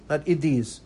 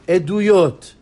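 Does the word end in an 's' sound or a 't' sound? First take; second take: s sound; t sound. First: The word ends with an 's' sound. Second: The word ends with a 't' sound. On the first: The speaker calls it wrong. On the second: The speaker calls it right. "Know how to say the word"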